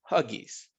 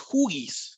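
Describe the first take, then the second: First: The first vowel sounds like uh. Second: The first vowel sounds like oo. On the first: The speaker calls it right. "Es Huggies" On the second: The speaker calls it wrong. "No es Huggies"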